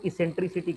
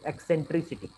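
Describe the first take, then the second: First: The word begins with an 'is' sound, no k. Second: The word begins with an 'ek' sound, with k. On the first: The speaker calls it wrong. "कई लोग इसको इसेंट्रिसिटी कहते हैं" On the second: The speaker calls it right. "The correct pronunciation is एक्सेंट्रिसिटी"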